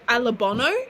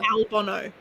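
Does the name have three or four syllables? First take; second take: four; three. First: The name is said with four syllables. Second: The name is said with three syllables. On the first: The speaker calls it right. "Charles calls Alexander Alabono" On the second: The speaker calls it wrong.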